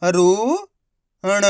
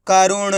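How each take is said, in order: First: करुण slow, syllables held apart. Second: Said in the usual way. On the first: Shown as a demonstration. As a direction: sound out करुण one long syllable at a time. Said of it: "direct मात्रा का उच्चारण करके पढ़ेंगे". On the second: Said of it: "तो मिलके बन जाएगा".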